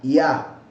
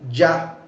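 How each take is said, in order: First: It begins with an I-like glide into A. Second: It begins with a J-like consonant sound. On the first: The speaker calls it right. "Es más como una I y una A" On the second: The speaker calls it wrong. "al decirlo con J pronuncian Ya y no es tan marcado"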